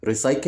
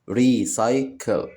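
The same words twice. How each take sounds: First: Said in the usual way. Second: "recycle" slowly as re, cy, cle; split into syllables. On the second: Shown as a demonstration. Teacher showing children three syllables, "recycle" split slowly. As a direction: say "recycle" in three separate beats. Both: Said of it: "كلمات فيها تلات مقاطع صوتية".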